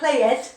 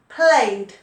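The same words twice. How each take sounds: First: The word ends in an extra id syllable. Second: The word ends in a plain d sound. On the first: The speaker calls it wrong. "Not id, not played" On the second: The speaker calls it right. "No, no, no. Played"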